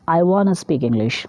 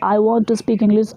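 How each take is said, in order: First: 'Want to' is reduced to 'wanna', said faster. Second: 'Want to' is said as two separate words. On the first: "this वाना is coming. आपका speed थोड़ा बढ़ जाता है" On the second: "आपने टू सिलेब two words लिया"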